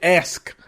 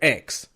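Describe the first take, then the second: First: The word is said with the s before the k. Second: The word is said with the k before the s. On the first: "I don't say ask" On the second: "we say X"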